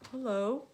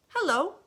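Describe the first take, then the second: First: Said in the usual way. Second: Put-on high, loud, cheerful child hello; little boy's greeting. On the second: Little boy greeting the alligator, high and loud. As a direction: sing out a bright kid's hello.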